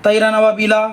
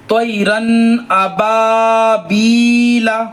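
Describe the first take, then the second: First: Quick, unstretched तैरन अबाबीला; rushed reading. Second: Very slow, melodic tajweed reading; slow recitation. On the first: Teacher showing students the hurried mistake. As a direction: say तैरन अबाबीला fast without lengthening. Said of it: "आप अगर जल्दी पढ़ के". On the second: Teacher modelling the verse, slow melodic chant. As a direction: chant it out, stretching each vowel. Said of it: "देखा आपने". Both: Shown as a demonstration.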